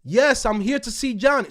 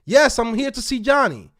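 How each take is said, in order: First: Loud, firm insistence; forceful. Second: Louder, pushier repeat; loud and firm. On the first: To the receptionist, insisting loudly. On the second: To the doubting receptionist, louder and firmer. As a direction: plant your feet and insist. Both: Retold or imitated. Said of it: "So now I gotta talk like this".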